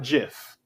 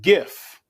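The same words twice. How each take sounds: First: The word begins with a J sound. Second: The word begins with a hard G sound. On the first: The speaker calls it wrong. "It doesn't turn into a J all of a sudden" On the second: The speaker calls it right. "when you take the T off of gift, it's still GIF"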